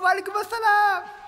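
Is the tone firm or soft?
soft. It is said in a soft, overly friendly tone. The reply invites further friendly conversation. The speaker calls it wrong. "but not too complacent. Don't say"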